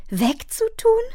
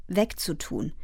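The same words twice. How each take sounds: First: Shocked question, swooping up at the end; horrified cry. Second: Said in the usual way. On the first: A narrator's reading. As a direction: echo it in disbelief, voice rising. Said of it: "schrie Fern entsetzt". (entsetzte, ungläubige Nachfrage)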